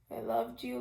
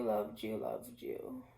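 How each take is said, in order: First: Said in the usual way. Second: Tearful. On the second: Real, not acted. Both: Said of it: "I'm crying on social media again".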